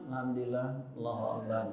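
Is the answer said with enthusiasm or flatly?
flatly. It is said flatly, without enthusiasm.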